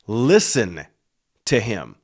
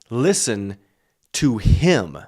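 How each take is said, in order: First: The stress falls on the word listen. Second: The stress falls on the word him. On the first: "I used to read these words with a certain emphasis" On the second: "Listen to him above Moses"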